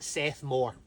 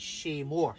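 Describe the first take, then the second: First: The name begins with a plain 's' sound. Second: The name begins with an 'sh' sound. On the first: The speaker calls it wrong. "I pronounced it Seth Moore" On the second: The speaker calls it right. "I've since learned it's Shay Moore"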